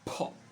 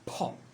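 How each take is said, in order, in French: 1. Le p est relâché avec un souffle d'air. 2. Le p est relâché avec un souffle d'air.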